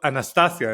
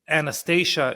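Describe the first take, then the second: First: The name is pronounced the Hebrew way. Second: The name is pronounced the American way. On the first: "in Hebrew it's called Anastasia" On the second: "Anastasia in America"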